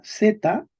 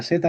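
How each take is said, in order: First: "z" said as dza; medieval Z sound. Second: "z" said as tha; modern Spain Z. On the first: Teacher explains medieval spelling, "z" voiced as dza. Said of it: "en español medieval la Z se pronuncia z". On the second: Teacher explains Z in Spain, "z" said as tha. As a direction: sound "z" as voiceless th, then a. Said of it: "se pronuncia z en España". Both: Shown as a demonstration.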